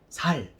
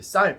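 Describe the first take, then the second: First: The first consonant is a plain, soft s. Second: The first consonant is a tense, strong s. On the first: "쌀 발음이 안 되고 살 이러는데" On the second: "쌀 발음해봐"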